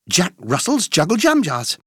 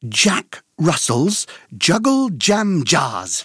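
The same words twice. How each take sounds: First: The phrase is said at a fast pace. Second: The phrase is said at a moderate pace.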